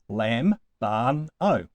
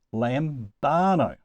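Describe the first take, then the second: First: Lambano split into three separate syllables, LAM, BAN, O. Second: Lambano said slowly with BAN stressed; stress second-to-last syllable. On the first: Teacher counting out the syllables of a Greek verb, syllable by syllable. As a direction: break lambano up with a clear pause after each syllable. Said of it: "Three syllables". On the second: Teacher showing where the accent falls, lambano slowly stressed on BAN. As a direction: lean on the middle syllable of lambano, drawing it out. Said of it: "it must go on the second to last syllable". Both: Shown as a demonstration.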